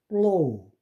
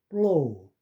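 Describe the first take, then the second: No difference in how they are said.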